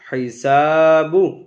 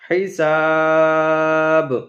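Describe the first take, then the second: First: The word ends with a final vowel sounded. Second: The word ends without the final vowel. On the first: This is the connected form used mid-recitation. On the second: This is the form used when stopping.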